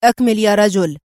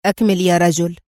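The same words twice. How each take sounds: First: Firm, louder clipped command "أكمل"; sternly. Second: Calm, lower, encouraging "أكمل"; with interest. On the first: General ordering the driver to continue, stern. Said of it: "قائلًا في صرامة". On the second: Intelligence man urging the driver on, interested and calm. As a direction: coax him gently to go on. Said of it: "قائلًا في اهتمام". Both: Acted.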